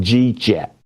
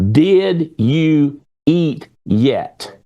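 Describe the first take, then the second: First: The words are slurred together into one short chunk. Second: Each word is pronounced clearly and separately. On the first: The speaker calls it wrong. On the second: The speaker calls it right.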